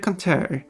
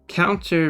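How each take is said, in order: First: It is said as 'canter'. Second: It is said as the ordinary 'counter'. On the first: It rhymes with odeur. "you don't say canter and odeur. If you do, those words rhyme" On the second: It does not rhyme with order. "Counter rhymes with mounter"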